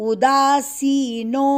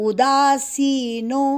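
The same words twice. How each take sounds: Both takes have the same delivery.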